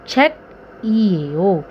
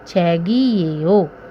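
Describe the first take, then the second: First: A k sound, with the syllables kept separate. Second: A g sound, linked into the following vowel. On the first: The speaker calls it wrong. "वैसे सिंपल पढ़ेंगे तो" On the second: The speaker calls it right. "हमें बोलना सिर्फ छेगी ये ओ है"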